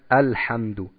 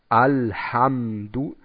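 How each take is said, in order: First: The A is open only to a moderate degree. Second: The A is overly open and drawn out. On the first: The speaker calls it right. "Nein, wir sagen Alhamdu" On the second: The speaker calls it wrong. "Wir sagen auch nicht Alhamdu"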